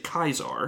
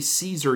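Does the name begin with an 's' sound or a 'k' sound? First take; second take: k; s. First: It begins with a hard 'k' sound. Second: It begins with a soft 's' sound. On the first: The speaker calls it right. "you're supposed to say Kaiser" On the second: The speaker calls it wrong. "you don't say Caesar"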